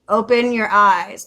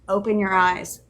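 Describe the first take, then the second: First: It is said a little louder than before. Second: It is said at a fairly quiet, normal volume.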